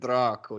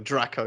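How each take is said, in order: First: The name is said with an Italian accent. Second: The name is said with a plain English accent. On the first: It sounds sexy. "the way he says it in his Italian accent" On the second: It sounds ordinary. "Whereas you say Draco"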